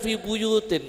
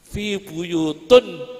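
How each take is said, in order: First: The last word ends with an 'in' sound. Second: The last word ends with an 'un' sound. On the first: The speaker calls it right. "yang benar" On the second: The speaker calls it wrong. "Badui yang baca begitu"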